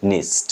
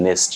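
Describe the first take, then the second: First: নেস্ট said as "nist"; careful corrected নেস্ট, i in place of e; corrected i sound. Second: নেস্ট with a clear e vowel, "nest"; the mistaken "nest" ending of নেস্ট; wrong e sound. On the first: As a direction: say নেস্ট with a short i before st. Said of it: "ই উচ্চারণ লাস্টে". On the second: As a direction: say নেস্ট with e before st. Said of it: "নেস্ট না". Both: Shown as a demonstration.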